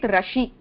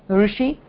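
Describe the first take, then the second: First: The first sound is a consonant r with 'a'. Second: The first sound is a vowel-like r. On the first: The speaker calls it wrong. "if it were a consonant, you will be saying it Rashi" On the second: The speaker calls it right. "the Rukara is a vowel and not a consonant"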